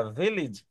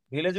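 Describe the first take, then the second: First: ভিলেজ falling away low on "-ij"; corrected pronunciation. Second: ভিলেজ ending in a full "-lej"; local mispronunciation. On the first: Teacher correcting students, ভিলেজ pronounced "vil-ij". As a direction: say ভিলেজ as "VIL-ij", short "i" in the second syllable. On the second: Teacher showing students how not to say it, ভিলেজ as "vi-lej". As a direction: say ভিলেজ with an "e" in the second syllable, "vi-lej". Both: Shown as a demonstration. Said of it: "ভিলেজ উচ্চারণটা ভিলেজ না".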